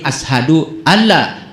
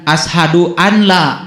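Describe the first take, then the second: First: The n sound merges into the following l. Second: The n sound is pronounced clearly before la. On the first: The speaker calls it right. "tapi ashadu an la, walaupun di situ ada nun" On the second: The speaker calls it wrong.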